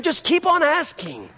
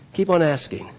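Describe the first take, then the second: First: "keep on asking" held very high, then falling; impassioned high-pitched cry on "keep on asking"; climactic cry. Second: Said in the usual way. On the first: Real, not acted. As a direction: let "keep on asking" soar as the sermon's peak. Climax of the preached refrain.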